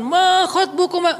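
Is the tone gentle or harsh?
harsh. It is said in a stern preacher's tone.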